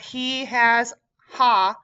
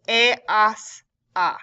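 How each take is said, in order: First: Each word starts with an audible h sound. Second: Each word starts with no h sound. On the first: The speaker calls it wrong. "This is not" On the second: The speaker calls it right. "we do not say the H's in Spanish"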